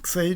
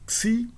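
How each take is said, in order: First: The vowel is an 'ei' diphthong. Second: The vowel is a plain 'ee' sound. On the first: This is the classical-period pronunciation. "Xei, de novo, na época clássica" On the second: This is a later pronunciation. "xi é uma pronúncia um pouco posterior"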